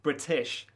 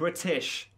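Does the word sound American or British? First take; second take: British; British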